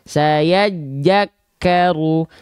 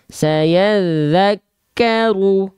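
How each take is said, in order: First: The second word starts with a 'j' sound. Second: The second word starts with a soft 'th' sound. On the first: The speaker calls it wrong. "Banyak orang melafalkan" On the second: The speaker calls it right. "yang harusnya kita baca"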